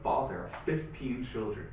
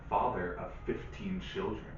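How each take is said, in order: First: It is said at a faster pace. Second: It is said at a slower pace.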